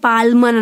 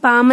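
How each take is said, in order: First: The word is said with an l sound. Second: The word is said without an l sound. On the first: The speaker calls it wrong. "పాల్మన్ అనట్లేము" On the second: The speaker calls it right. "పామ్ అని అంటున్నాం"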